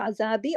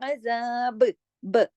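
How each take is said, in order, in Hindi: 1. शब्द 'i' स्वर पर सहजता से खत्म होता है। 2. शब्द गूँजते, उछलते हुए 'b' पर खत्म होता है। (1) "अगर मिलाएँगे तो अज़ाबी" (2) "अगर रुकेंगे तो अज़ाब ब ऐसे हो जाएगा तो कलकला"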